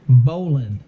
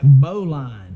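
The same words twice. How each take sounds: First: It sounds like 'bowling' without the final g. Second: It is read out the way it is spelled. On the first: The speaker calls it right. "like you're going bowling, only with just without the the, the G" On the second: The speaker calls it wrong. "if you were to pronounce it um, as it looks"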